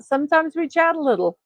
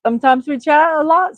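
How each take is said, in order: First: "little" said smaller and falling. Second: "lot" louder with a rising lift; stress on lot. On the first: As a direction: let "a little" drop and shrink. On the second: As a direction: punch "lot" up and out. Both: Shown as a demonstration. Contrasting a lot with a little.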